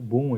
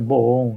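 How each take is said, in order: First: The vowel sounds like 'oo', read as English. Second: The vowel sounds like 'oh', read as Portuguese. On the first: The speaker calls it right. "como ele tem que ser lido" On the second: The speaker calls it wrong. "Obviamente em português seria bom, né? Mas não se lê assim"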